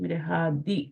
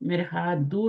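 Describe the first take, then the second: First: The word ends with an 'i' vowel. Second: The word ends with an 'u' vowel. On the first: The speaker calls it right. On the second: The speaker calls it wrong.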